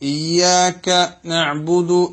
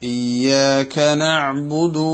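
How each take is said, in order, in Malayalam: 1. ആദ്യ വാക്കിനു ശേഷം ഒരു ഇടവേളയുണ്ട്. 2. വാക്കുകൾ ഇടവേളയില്ലാതെ ഒന്നിച്ചു ചേർന്നു പോകുന്നു.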